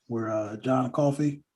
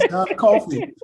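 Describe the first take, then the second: First: Slow, drawn-out put-on accent on John Coffey. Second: John Coffey said through laughter, higher and louder; laughing retake. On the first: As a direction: slip into a vague movie-character accent for the name John Coffey. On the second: Real, not acted. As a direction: redo the name John Coffey while still laughing at yourself. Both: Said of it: "I don't know why I said it with an accent".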